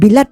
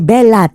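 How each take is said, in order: First: The first vowel sounds like 'ee'. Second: The first vowel sounds like 'eh'. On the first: It turns the alias into a vulgar word. The speaker calls it wrong. "hindi naman Bilat" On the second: It is the alias as actually meant. The speaker calls it right. "kundi Belat"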